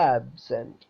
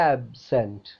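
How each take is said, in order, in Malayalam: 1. Stress ആദ്യത്തെ സിലബിളിനാണ്. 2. Stress ആദ്യത്തെ സിലബിളിനാണ്.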